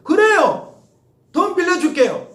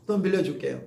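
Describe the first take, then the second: First: Loud, bright eager agreement; eagerly agreeing to lend money; eager yes. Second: Said in the usual way. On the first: Pretend. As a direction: shout a happy yes to the student. Mock eager reply to borrowing.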